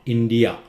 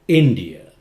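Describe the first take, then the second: First: The first syllable is not said louder. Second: The first syllable is said louder. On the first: The speaker calls it wrong. "not India" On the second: The speaker calls it right. "India in louder"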